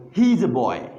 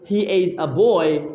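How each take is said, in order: First: Put-on "He's a boy" with "He's" as one syllable; shortened "He's", the vowel of "is" dropped; contracted form. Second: Put-on "He is a boy" with "is" as its own syllable; full "He is", not shortened to "He's"; uncontracted form. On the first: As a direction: run "He is" together into "He's". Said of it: "it's going to be one syllable". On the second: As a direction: say "He is" as two separate words. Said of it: "It is shortened". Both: Shown as a demonstration.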